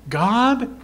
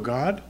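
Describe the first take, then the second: First: It is said searchingly with more intensity. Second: It is said calmly with low intensity.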